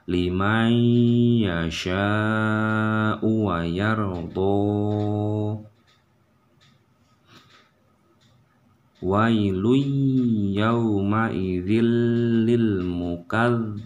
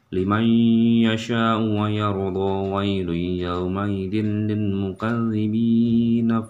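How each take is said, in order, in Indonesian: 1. Ayat ini dibaca dengan tempo lambat. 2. Ayat ini dibaca dengan tempo cepat. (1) "contohnya seperti ini walaupun pelan" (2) "misalkan teman-teman mau baca cepat"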